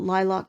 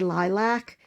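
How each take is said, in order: First: The word is said the Canadian way. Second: The word is said the American way. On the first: "I know I say that like a Canadian" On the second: "some people say lilac"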